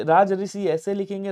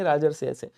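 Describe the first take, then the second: First: राजऋषि said as two parts, raj plus rishi; split form. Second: राजर्षि said as one word, rajarshi; fuse the parts of राजर्षि together; joined form. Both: Shown as a demonstration. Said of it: "और राजर्षि ऐसे".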